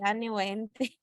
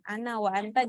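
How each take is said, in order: First: It is said with local vowel substitutions. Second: It is said with standard Arabic sounds.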